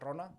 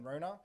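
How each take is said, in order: First: The name is said with a Māori pronunciation. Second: The name is said with an Australian English pronunciation. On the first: The speaker calls it right. "It's Rona" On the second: The speaker calls it wrong. "that's not how you pronounce it"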